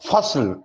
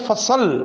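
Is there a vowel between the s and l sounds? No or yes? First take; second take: no; yes. First: The s runs straight into the l. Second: A vowel is inserted between s and l. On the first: The speaker calls it right. "स्वाद भी साकिन है और लाम भी साकिन है" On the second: The speaker calls it wrong. "फ़सल नहीं बोलेंगे"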